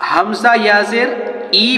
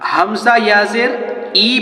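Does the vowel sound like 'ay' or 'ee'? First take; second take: ee; ee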